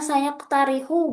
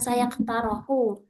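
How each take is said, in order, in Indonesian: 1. Vokal tengahnya 'i'. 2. Vokal tengahnya 'o'. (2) "bukan saya ketarohu"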